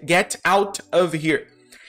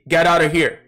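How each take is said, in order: First: The words are said separately, one by one. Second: The words are linked smoothly together. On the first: The speaker calls it wrong. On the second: The speaker calls it right.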